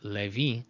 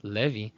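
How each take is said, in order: Both takes have the same delivery.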